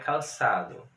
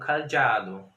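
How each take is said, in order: First: It is said with a plain s-like sound. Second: It is said with a dz-like sound. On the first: Spelling with S would give this reading. "o S não dava para usar, porque ficaria calçado na época" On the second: Spelling with Z would give this reading. "o Z, na época, resultaria numa pronúncia como cadeado"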